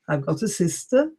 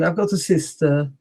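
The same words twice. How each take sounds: First: The final vowel is short. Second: The final vowel is long. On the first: "Some people say it's short" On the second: "some will say it long"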